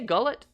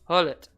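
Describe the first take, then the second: First: The name begins with a hard G sound. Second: The name begins with an H sound. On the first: The speaker calls it wrong. "Do you say Gullit?" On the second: The speaker calls it right. "So it's pronounced as an H"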